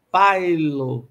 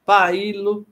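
First: "pailo" in two syllables, PAI-lo, falling in pitch; lower-pitched "pailo", the I a short glide after A; diphthong. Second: "pailo" in three syllables, pa-I-lo; hiatus. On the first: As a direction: say "pailo" with "ai" as one gliding sound. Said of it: "nos ditongos as semivogais I e U". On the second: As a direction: say "pailo" with A and I as separate vowels. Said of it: "teríamos hiatos e não ditongos". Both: Shown as a demonstration.

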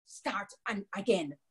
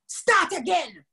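First: Low, subdued command; ordering. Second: Higher, insistent command; ordering. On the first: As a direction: give the order under control, softly. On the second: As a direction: order it sharply, pitched up. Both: A narrator's reading. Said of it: "Anansi ordered".

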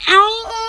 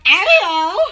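First: A short pained "ow" with a wobble; retold yelp of pain. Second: A rising, half-laughing "ow"; lighter repeat of the ow. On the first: Telling viewers about falling by the pool, a pained "ow". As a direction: relive the sting of the fall. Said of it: "I was like". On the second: Retold or imitated. Retelling the fall to viewers, a rising, amused "ow". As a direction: shrug it off, amused now.

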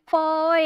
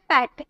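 First: फॉर stretched out in separate pieces; फॉर said haltingly, sound by sound; broken into sounds. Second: Said in the usual way. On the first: Shown as a demonstration. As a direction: draw फॉर apart bit by bit. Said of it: "तोड़ तोड़ के बोल रहे". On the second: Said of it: "आप direct बोल रहे".

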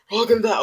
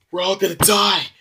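First: Higher, louder hysterical repeat of "We're all gonna die"; even more panicked wail. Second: Panicked wail. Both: Acted. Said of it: "you might wanna calm down there".

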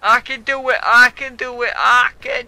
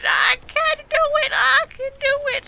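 First: Pumping himself up. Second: Chanted, high, loud shout of self-belief; chanted, yell it to make it happen; chanting himself on at full volume. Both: Real, not acted. Psyching himself up mid-game.

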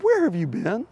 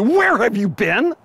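First: Said in the usual way. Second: Higher, louder scolding demand; wife scolding her late husband. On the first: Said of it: "not the tone of voice she used". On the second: Shown as a demonstration. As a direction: scold him like a wife who waited up. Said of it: "much closer to".

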